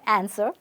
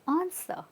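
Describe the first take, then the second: First: The ending is a full, strong 'er' sound. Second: The ending is a soft, subtle 'uh' sound. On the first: The speaker calls it wrong. "Not answer or answer" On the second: The speaker calls it right. "it's answer. ... we're not saying er, we're saying answer. Keep it subtle"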